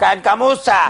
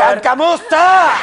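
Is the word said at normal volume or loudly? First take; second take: normal volume; loudly. First: The word is said at normal volume. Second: The word is said loudly.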